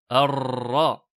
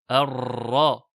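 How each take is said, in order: First: The r has a long, exaggerated trill. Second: The same.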